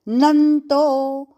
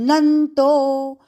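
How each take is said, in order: Both takes have the same delivery.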